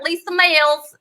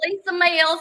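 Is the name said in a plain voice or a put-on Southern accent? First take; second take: Southern accent; plain. First: It is said in a put-on, nasal Southern accent. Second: It is said in the speaker's ordinary accent.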